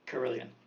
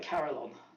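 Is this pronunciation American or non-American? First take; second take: non-American; American. First: It is said in a non-American pronunciation. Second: It is said in an American pronunciation.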